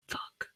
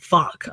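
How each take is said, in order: First: Breathy whispered "Fuck."; whispered curse. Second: Said in the usual way. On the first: Retold or imitated. Caught lying to her mom, a whispered "Fuck.". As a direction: let "Fuck." slip out under your breath.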